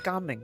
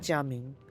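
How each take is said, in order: First: The name starts with a hard g sound. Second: The name starts with a soft j sound. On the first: The speaker calls it right. "so Gaming is the proper one" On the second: The speaker calls it wrong. "that's a Mandarin pronunciation"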